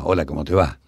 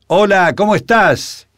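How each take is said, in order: First: It sounds close and ordinary, like nearby talk. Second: It sounds far away, projected across a distance.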